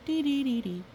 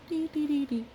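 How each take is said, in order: Both takes have the same delivery.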